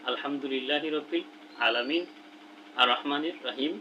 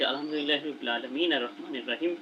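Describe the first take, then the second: First: It is read slowly with a pause between verses. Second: It is read quickly with no pause between verses.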